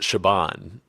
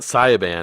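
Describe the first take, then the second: First: The name begins with an 'sh' sound. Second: The name begins with a 'see-ya' sound. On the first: The speaker calls it right. "it's Shaban" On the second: The speaker calls it wrong. "it's not Sayaban"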